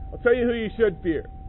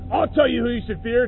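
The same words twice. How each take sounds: First: It is said quietly, in a calm earnest voice. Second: It is said loudly, in a harsh yelling voice. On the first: The speaker is earnestly advising the listener. The speaker calls it right. "He's not yelling" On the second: The speaker is threatening and scolding the listener. The speaker calls it wrong. "it's not like this"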